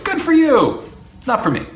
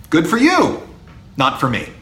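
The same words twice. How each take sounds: First: Much higher, a breezy singsong brush-off. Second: Said in the usual way. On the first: Shown as a demonstration. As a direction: toss it off lightly, higher up. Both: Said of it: "There's a phrase".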